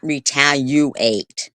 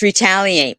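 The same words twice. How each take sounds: First: It is said with a 'you' sound inside. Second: It is said without a 'you' sound inside. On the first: The speaker calls it wrong. "not retaliate. There's no you in retaliate" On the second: The speaker calls it right. "it's retaliate"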